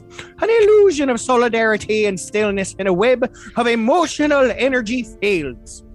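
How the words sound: It is read in a put-on Irish accent.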